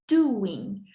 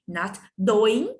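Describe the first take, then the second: First: "doing" said the proper way; right version. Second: "doing" said with a hard d; "doing" as doh-ing, wrong sound first; wrong version. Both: Shown as a demonstration. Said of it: "not doing, but doing".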